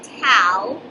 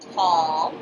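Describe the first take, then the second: First: The vowel sounds like the word owl. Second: The vowel sounds like the word all. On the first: The speaker calls it wrong. "not towel" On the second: The speaker calls it right.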